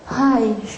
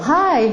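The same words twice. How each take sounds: First: It is said quietly and timidly. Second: It is said brightly, high and confidently.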